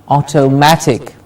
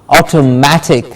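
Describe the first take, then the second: The two takes are said the same way.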